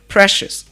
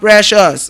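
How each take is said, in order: First: The first vowel is said with a narrower mouth. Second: The first vowel is said with a wide-open mouth. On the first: The speaker calls it right. "It is precious" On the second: The speaker calls it wrong. "you don't open all your mouth and say precious. It's not precious"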